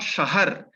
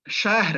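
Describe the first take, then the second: First: An extra vowel is heard between h and r. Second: The h and r are joined with no vowel. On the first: The speaker calls it wrong. "and not shahar" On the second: The speaker calls it right. "pronounced as shahr"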